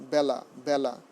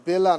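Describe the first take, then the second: First: বেলা with open "æ", "bæ-la"; correct pronunciation. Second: বেলা with closed "e", "bay-la"; wrong form. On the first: Teacher correcting students, বেলা said "bæ-la". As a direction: say বেলা with the vowel of "cat". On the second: Teacher rejecting the error, loud "bay-la" for বেলা. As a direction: hit বেলা loudly with an "ay" vowel. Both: Shown as a demonstration. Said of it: "বেলা not".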